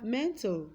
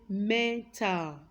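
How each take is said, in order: First: 'mental' with the schwa dropped before the L; syllabic L. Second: 'mental' slowly split as men-tal, full vowel in the second syllable; mispronounced, full vowel. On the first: Teacher reading out example words, 'mental' with syllabic L. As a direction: say 'mental' with L forming the last syllable. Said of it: "This li here is a syllabic consonant". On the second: Teacher showing the wrong way, 'mental' as slow men-tal. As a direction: say 'mental' slowly with a clear 'tal' ending. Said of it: "That would be wrong". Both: Shown as a demonstration.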